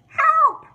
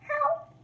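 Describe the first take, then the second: First: It is said loudly. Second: It is said quietly.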